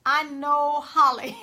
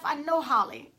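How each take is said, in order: First: Said slowly through a laugh, a bit louder. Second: Said in the usual way. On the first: Retold or imitated. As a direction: chuckle it out, amused at herself. Repeats line, laughs after.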